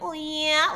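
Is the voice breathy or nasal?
nasal. It is said nasal and strung along.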